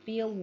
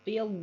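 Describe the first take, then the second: The two takes are said the same way.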